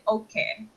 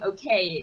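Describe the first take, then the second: First: It is said with a Japanese accent. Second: It is said with an English accent. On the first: "they would say okay" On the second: "how we say it in English"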